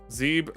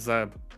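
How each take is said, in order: First: The vowel is long, as in zebra. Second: The vowel is short, as in web. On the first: The speaker calls it right. "like zebra" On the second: The speaker calls it wrong. "not Zeb"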